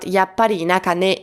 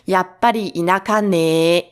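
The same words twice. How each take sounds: First: The final ne is said short. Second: The final ne is drawn out long.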